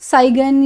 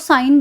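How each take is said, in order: First: The word has a g sound. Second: The word has no g sound. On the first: The speaker calls it wrong. "इस तरह से मत बोले" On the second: The speaker calls it right. "इसको साइन बोला जाएगा"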